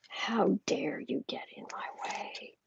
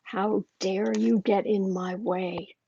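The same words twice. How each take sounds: First: Slow, softer whispered threat; menacing whisper. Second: Slow, cold mock fury; imitating angry McConnell. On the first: Retold or imitated. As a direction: hiss it quietly like a furious boss. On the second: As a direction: drag out each word like a seething boss. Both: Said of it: "He is so angry".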